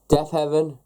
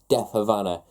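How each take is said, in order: First: The name ends sounding like 'heaven'. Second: The name ends sounding like 'Havana'. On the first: The speaker calls it right. "I finally pronounced that right" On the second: The speaker calls it wrong. "I've been saying Death Havana for nearly oof, nearly a month now"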